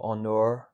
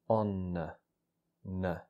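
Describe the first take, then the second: First: The word ends in a fuller, drawn-out 'ur' sound. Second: The word ends in a short, weak schwa vowel. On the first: The speaker calls it wrong. "so not onur or onur" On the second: The speaker calls it right. "but just on n. Really short vowel sound"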